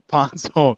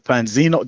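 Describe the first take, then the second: First: The name ends with an 'ohn' sound. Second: The name ends with an 'eeno' sound. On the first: The speaker calls it right. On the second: The speaker calls it wrong.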